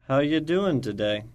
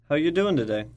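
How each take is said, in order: First: It is said slowly. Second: It is said at normal speed.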